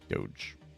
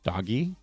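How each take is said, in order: First: The word is said with one syllable. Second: The word is said with two syllables. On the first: It is the pronunciation most people settled on. "the correct way to pronounce it ... is Doge" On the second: It reflects the original author's intended reading. "it's probably should be pronounced doggy"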